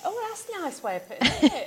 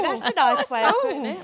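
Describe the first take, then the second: First: Lightly Cockney, a little higher; slipping into Cockney. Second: Playful mock-Cockney echo; put-on Cockney. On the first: Real, not acted. Guest admiring friend's saying about the nose, slipping into Cockney. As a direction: let a touch of Cockney creep in. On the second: Shown as a demonstration. Guest echoing their own accidental accent, put-on Cockney. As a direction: repeat it in a knowingly Cockney voice. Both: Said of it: "I've just got all cockney".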